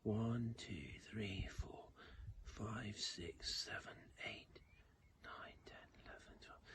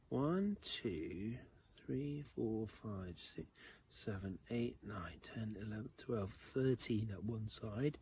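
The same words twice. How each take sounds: First: Counting under the breath in a whisper. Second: Put-on counting aloud slowly for kids; teaching a child to count. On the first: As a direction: whisper the numbers, fading away. Counting the other side quietly. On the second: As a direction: count each grain out for children. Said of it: "can you count with me". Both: Shown as a demonstration.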